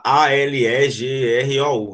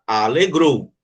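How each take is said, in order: First: "A L E G R O U" named letter by letter; spelled out letters. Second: Said in the usual way. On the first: Shown as a demonstration. Teacher showing how not to say alegrou, spelled out. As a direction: spell "A L E G R O U" one letter at a time. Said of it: "a gente não vai falar". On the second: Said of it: "a gente vai falar alegrou".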